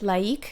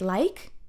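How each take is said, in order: First: It is said with two French vowel sounds. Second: It sounds just like the English word like. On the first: The speaker calls it right. "I will pronounce it laïque just to make it clear" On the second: The speaker calls it wrong. "too much too similar to the English word to like"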